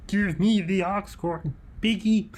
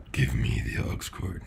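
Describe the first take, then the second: First: High, slow, swooping demand; put-on silly voice. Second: Very low mock demand; deep put-on voice. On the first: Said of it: "I didn't like that voice". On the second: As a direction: drop far down for a joke deep voice. Same demand retried in a low voice.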